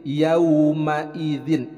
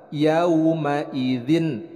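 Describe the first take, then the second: The two takes are said the same way.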